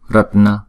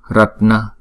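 The two takes are said the same way.

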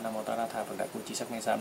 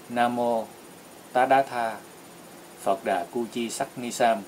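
First: The phrase is recited quickly. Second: The phrase is recited slowly and deliberately. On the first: The reciter already knows it by heart. "Khi mình đọc thuộc rồi thì mình có thể đọc nhanh" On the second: The reciter is still learning it. "mới đầu mình học, mình phải học từ từ, mình đọc chậm như vậy"

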